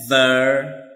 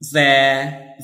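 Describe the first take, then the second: First: Their reduced to a short thuh; weak form of their. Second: Their said full, like there; strong form of their. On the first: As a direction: swallow the vowel in their. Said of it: "for the weak". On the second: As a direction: open vowel in their. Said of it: "for the strong". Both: Shown as a demonstration.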